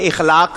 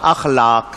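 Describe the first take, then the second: First: The word begins with an i vowel. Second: The word begins with an a vowel. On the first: The speaker calls it wrong. "इखलाक गलत लफ्ज है" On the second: The speaker calls it right. "सही लफ्ज क्या है? अखलाक।"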